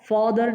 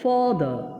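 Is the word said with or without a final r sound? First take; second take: with r; without r. First: It ends with a clearly heard r sound. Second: It ends in a vowel with no r sound. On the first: The speaker calls it wrong. "ফাদার না বলে" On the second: The speaker calls it right. "শব্দ শেষে আর উচ্চারণ হবে না"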